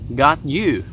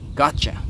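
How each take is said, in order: First: The two words are said separately and fully. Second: The words blend together into gotcha.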